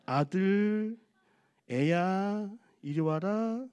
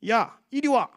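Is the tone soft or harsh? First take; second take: soft; harsh. First: It is said in a soft, tender tone. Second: It is said in a blunt, harsher tone.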